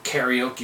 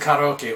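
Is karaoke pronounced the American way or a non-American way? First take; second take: American; non-American. First: It is pronounced with an American accent. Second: It is pronounced without an American accent.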